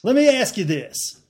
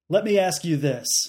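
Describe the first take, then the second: First: It is said in a Southern accent. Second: It is said in a plain accent.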